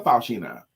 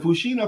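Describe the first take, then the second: First: Faushina said as fow-SHEE-na; first syllable FOW. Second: Fushina said as foo-SHEE-na; first syllable FOO. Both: Shown as a demonstration. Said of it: "Which is correct?".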